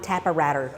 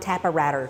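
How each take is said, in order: First: The word comes out garbled, like a child's version. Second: The word comes out garbled, like a child's version.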